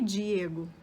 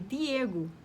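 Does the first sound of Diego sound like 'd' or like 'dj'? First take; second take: dj; d. First: The D sounds like a soft 'dj' sound. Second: The D sounds like a plain hard 'd'. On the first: This is how it sounds in Rio Portuguese. "em espanhol não é Diego" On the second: This is how it sounds in Spanish. "é Diego"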